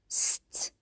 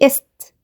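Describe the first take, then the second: First: The s starts directly with no vowel before it. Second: A short vowel is added before the s. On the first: The speaker calls it right. "ست ست" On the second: The speaker calls it wrong. "ما اقولش است"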